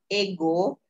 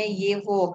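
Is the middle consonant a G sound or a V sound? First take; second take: G sound; V sound. First: The middle consonant is a hard G sound. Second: The middle consonant is a V sound. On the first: The speaker calls it wrong. "tulisannya ego" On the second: The speaker calls it right. "tapi bacanya Yevo"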